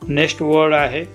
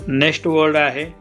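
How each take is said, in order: Both takes have the same delivery.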